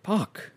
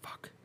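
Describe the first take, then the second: First: Frustrated outburst. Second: Barely voiced, deflated curse; defeated murmur. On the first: Retold or imitated. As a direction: let it burst out in frustration. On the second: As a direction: mutter it under your breath. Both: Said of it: "And you're like".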